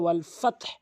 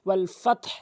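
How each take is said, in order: Both takes have the same delivery.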